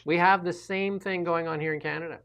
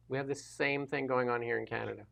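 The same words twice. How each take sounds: First: Said in the usual way. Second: Softer echo of the line; quieter repeat. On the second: Real, not acted. Guest quietly repeats his point about Canada, much softer. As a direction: repeat it under your breath.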